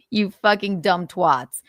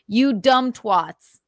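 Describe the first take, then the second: First: Said in the usual way. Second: Each word dragged out slowly and hit hard; slow emphatic insult. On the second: Real, not acted. Repeating the insult to critics, slow and deliberate. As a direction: spell out "You dumb twats" slowly, with weight on every word.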